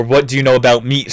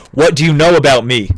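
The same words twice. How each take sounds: First: "meat" closed off with a final t, near usual voice. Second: "me" ending on the vowel, a bit raised; ambiguous "me". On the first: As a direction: end "meat" on a t. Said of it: "didn't know if he said". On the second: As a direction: say "me" with an open ending, no final t. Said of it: "Anthony didn't know if he said". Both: Shown as a demonstration.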